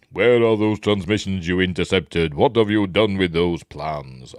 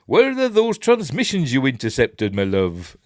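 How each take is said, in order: First: Darth Vader. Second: High, loud West Country take on a villain's line; jokey West Country villain; Dave Prowse. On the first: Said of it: "that's where he asks". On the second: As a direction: interrogate in a mock southwestern English farmer's accent. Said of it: "accent like that". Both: Acted.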